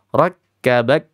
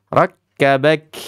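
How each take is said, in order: First: Rakkabak ending on a firm, fully stopped k; correct syiddah reading. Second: Rakkabak with the final k loosened and breathy, rising; wrong rakhawah reading. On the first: Teacher giving kids the correct firm ending. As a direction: stop the last k of rakkabak sharply and strongly. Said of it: "Dah begitu aja". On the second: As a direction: let the k of rakkabak trail out instead of stopping. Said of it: "Nggak boleh". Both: Shown as a demonstration.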